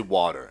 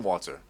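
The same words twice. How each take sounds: First: American "water", with the r sounded; American accent. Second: Australian "Water", no r at the end; Australian accent. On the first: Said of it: "I'd say water instead of water". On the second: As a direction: say "Water" the Australian way, dropped lower. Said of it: "how do you say that, Australian". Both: Shown as a demonstration.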